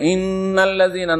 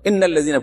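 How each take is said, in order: First: The nasal sound is held with ghunna. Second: The nasal sound is cut short without ghunna. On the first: The speaker calls it right. "যদি গুন্না না পড়ে" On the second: The speaker calls it wrong. "ইন্নাল্লাযীনা পড়ে দিলেন"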